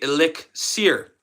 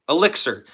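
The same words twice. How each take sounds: First: The word is pronounced the French way. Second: The word is pronounced the English way. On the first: "In French, they say elixir" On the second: "In English, elixir is said elixir"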